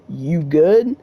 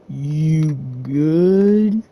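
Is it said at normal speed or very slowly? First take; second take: normal speed; very slowly. First: It is said at normal speed. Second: It is said very slowly, drawn out.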